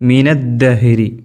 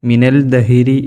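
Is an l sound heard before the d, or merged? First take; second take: merged; l heard. First: The l merges into a doubled d sound. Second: A separate l sound is heard before d. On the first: The speaker calls it right. "നൂന് കഴിഞ്ഞാൽ നേരെ ദാൽമുക്ക് പോയാൽ മതി" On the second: The speaker calls it wrong. "മിനൽ ദഹിരി എന്നോതരുത്"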